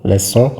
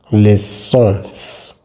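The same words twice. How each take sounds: First: Said in the usual way. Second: "leçons" with a long hissed sss added; exaggerated S sound. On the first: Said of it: "It's pronounced garçon". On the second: Shown as a demonstration. Teacher making the sound just for emphasis, exaggerated S. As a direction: overdo the S in "leçons", hissing it out. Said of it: "making this sound just for emphasis".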